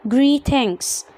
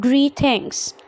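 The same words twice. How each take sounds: The two takes are said the same way.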